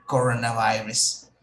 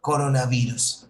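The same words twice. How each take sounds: First: Coronavirus with an English "vai-res"; English pronunciation of coronavirus. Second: Coronavirus with a Spanish "vi-rus"; Spanish pronunciation of coronavirus. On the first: Teacher models the word for students, coronavirus pronounced in English. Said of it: "escucha la pronunciación". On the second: Teacher links crown to corona for class, coronavirus pronounced in Spanish. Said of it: "Crown in Spanish is corona". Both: Shown as a demonstration.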